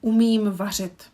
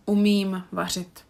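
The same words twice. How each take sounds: First: Umím vařit said firmly and a bit louder; emphatic model sentence. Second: Said in the usual way. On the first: Shown as a demonstration. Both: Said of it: "the last sentence".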